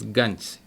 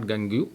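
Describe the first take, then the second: First: The word ends without an extra vowel sound. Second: The word ends with an extra vowel sound. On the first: The speaker calls it right. "it is Gange. This is the pronunciation" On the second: The speaker calls it wrong. "It is not Gangu"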